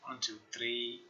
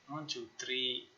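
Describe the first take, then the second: No difference in how they are said.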